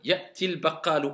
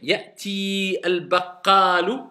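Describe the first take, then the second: First: The vowel of ti is cut short. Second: The vowel of ti is held long. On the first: The speaker calls it right. "on ne prolonge pas" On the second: The speaker calls it wrong. "est-ce que je vais dire"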